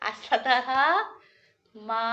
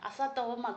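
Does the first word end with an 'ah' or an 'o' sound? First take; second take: ah; o. First: The words are split, with the first ending in 'ah'. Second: The words are joined, with the first ending in 'o'. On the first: "ഇനി ഇതിനെ പിരിക്കേണ്ടത് ഇങ്ങനെയാണ്" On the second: "തോമ എന്നൊരു വാക്കില്ല"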